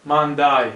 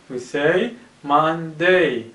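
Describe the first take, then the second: First: Monday said as manda, open final a; mock mistake, manda instead of Monday; wrong Monday. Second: Slow Monday, final syllable day; correct Monday. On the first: Teacher shows pupils the wrong Monday. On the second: Teacher corrects pupils, slow Monday. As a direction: model it slowly, Monday. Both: Shown as a demonstration.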